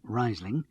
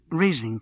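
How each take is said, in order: First: "Riesling" said as RYZE-ling; Riesling as RISE-ling. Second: "Riesling" said as REEZ-ling; Riesling with long EE. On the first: Narrator showing her pronunciation, "Riesling" as RYZE-ling. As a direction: say "Riesling" with a first syllable like "rise". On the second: Older woman ordering her drink from Dave, "Riesling" as REEZ-ling. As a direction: say "Riesling" with a first syllable like "freeze". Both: A narrator's reading. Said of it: "pronouncing it Riesling".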